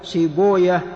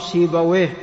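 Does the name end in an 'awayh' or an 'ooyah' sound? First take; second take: ooyah; awayh. First: The name ends with an 'ooyah' sound. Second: The name ends with an 'awayh' sound. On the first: This is how hadith scholars say the name. "فهذه الأسماء أهل الحديث ينطقونها" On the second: This is the form hadith scholars avoid saying. "ولا يقولون نفطويه أو سيبويه"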